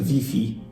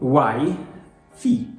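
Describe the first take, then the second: First: It begins with a strong V sound. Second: It begins with a W sound, like why. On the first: "in a very Polish way, which is Wi-Fi" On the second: "some people say why fi"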